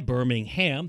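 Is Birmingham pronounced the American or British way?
American. The name is said with an American pronunciation. The speaker calls it right. "Birmingham, thank you"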